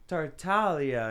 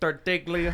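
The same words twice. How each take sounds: First: The name is said with an Italian pronunciation. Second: The name is said with an American pronunciation. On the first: "In his country, they're like" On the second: "here they're like"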